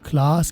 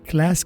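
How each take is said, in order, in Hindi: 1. a स्वर लंबा और खुला है। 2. a स्वर सपाट और छोटा है। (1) "क्लास की बजाय" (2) "ए की आवाज़ लिटा देता हूँ ... अमेरिकन लैंग्वेज"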